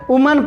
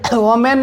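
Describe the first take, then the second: First: The first vowel sounds like 'oo' in 'put'. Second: The first vowel sounds like 'o' in 'go'. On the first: The speaker calls it right. "इसे वुमन पढ़ना है" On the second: The speaker calls it wrong. "इसे वोमेन नहीं पढ़ना है"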